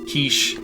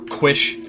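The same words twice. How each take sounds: First: The word has its usual, standard pronunciation. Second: The word has an odd, jokey altered pronunciation.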